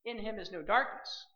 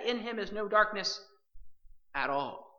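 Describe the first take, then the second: First: Said in the usual way. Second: "at all" set apart after a pause; stress on at all. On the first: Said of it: "he's just not saying". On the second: Shown as a demonstration. Preacher to believers, stressing "at all" after a pause. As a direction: lean on "at all" to close every doubt. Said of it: "But what does he say?".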